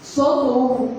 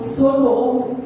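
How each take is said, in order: The two takes are said the same way.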